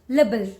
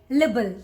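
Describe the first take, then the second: Both takes have the same delivery.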